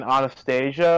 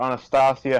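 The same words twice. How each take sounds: First: Said in the usual way. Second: Anastasia said as ah-nah-STAH-see-ah; "ah" vowels in Anastasia, ending in "see-ah"; alternative pronunciation. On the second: Shown as a demonstration. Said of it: "however you wanna pronounce it".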